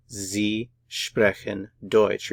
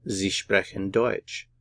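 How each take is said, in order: First: "Sie sprechen Deutsch" very slowly, word by word; drawn-out teaching version of "Sie sprechen Deutsch"; slow model sentence. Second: Said in the usual way. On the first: Shown as a demonstration. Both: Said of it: "Put it all together".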